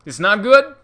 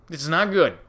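First: Higher and louder, rising alarm; emphatic. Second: Said in the usual way. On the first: Shown as a demonstration. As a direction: blurt it out louder in warning.

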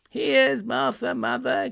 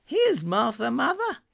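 First: Put-on excited children crying out. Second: A lightly voiced girl, much higher, rising at the end; young girl voice. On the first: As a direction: cry it out like two eager kids. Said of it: "cried the two young Cratchits". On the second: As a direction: announce your own arrival brightly as a girl. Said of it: "said a girl". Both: A narrator's reading.

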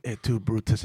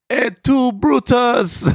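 First: Said in the usual way. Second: Very high, loud Italian American cry; Italian accent. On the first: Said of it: "it wasn't". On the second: Retold or imitated. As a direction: Brutus betrays him, so wail it street style. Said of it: "it was".

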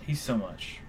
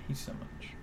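First: Said in the usual way. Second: Breathy whispered aside; whispering. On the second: Acted. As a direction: whisper it under your breath. Repeats phrase as a whisper.

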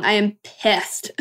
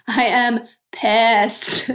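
First: I am pissed, each word slow and weighted; slow emphatic pissed. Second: I am pissed, stretched very slowly through a laugh; laughing repeat. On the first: Telling listeners she's still angry, slow and firm. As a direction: drag out pissed slowly with weight. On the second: Admitting her anger again to listeners, slow and laughing. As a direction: laugh and drawl out each word. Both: Real, not acted. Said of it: "I'm really mad".

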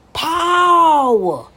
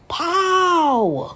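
First: Sung louder. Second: Sung. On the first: Sings the song's word "Power" out loud to viewers. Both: Retold or imitated. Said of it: "He just came out with that song".

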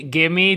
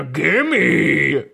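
First: Said in the usual way. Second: Drawn-out mock growl of a demand; stretched, put-on creature voice; monster's gimme. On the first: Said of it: "does not work into". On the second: Shown as a demonstration. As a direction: ham up a greedy monster demand. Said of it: "that doesn't sound like anything".

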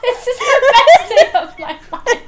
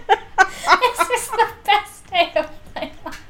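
First: Delighted shriek, laughing; screaming laugh. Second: Said in the usual way. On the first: Real, not acted. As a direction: squeal it with joy. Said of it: "that clip of you screaming".

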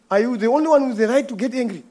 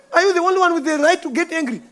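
First: Said in the usual way. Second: Higher, fast, indignant challenge; higher indignant retort. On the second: Retold or imitated. To the angry customer, finally answering back indignantly. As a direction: fire the question back, offended. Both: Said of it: "you know what I wanted to ask him".

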